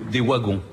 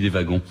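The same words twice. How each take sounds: First: The word is pronounced the way Belgian speakers say it. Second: The word is pronounced the way speakers in France say it. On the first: This is how it is said in Belgium. "nos amis belges parlent de" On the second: This is how it is said in France. "Mais en France, on dit des wagons"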